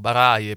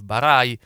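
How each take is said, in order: First: The name is said in an Italianized way. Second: The name is said in its original way. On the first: The speaker calls it wrong. "qui lo pronunciamo un po' Baraie" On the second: The speaker calls it right. "però la pronuncia corretta è Yves Barai"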